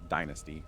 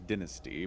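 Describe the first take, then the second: First: It is said with a North American pronunciation. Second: It is said with a British pronunciation. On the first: "but I think in North America it's dynasty" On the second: "I think the British pronunciation is dynasty"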